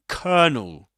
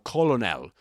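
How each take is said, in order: First: It is not pronounced the way it is spelled. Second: It is pronounced the way it is spelled. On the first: The speaker calls it right. "but actually it's pronounced as colonel" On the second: The speaker calls it wrong. "it seems to be pronounced something like colonel"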